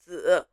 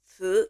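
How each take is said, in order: First: "zi" held in a low, dipping third tone. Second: "zi" with a rising second tone. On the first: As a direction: demonstrate "zi" with a Mandarin third tone. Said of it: "in the third tone". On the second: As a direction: demonstrate "zi" climbing in Mandarin second tone. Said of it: "in the second tone". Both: Shown as a demonstration.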